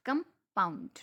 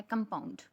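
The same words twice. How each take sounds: First: compound with a break after कम and weight on pound; light कम, pause, then a heavier pound in compound; stress on second syllable. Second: Said in the usual way. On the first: Shown as a demonstration. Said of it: "वो rise हुई है वहाँ पे sound". (Compound में कम के बाद रुककर pound पर ज़ोर)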